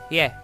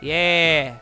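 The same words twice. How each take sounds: First: The word is short. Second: The word is drawn out longer. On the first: It means yes. "if you wanted to casually say yes, you'd be like" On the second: It means no. "if you wanted to casually say no, you'd be like"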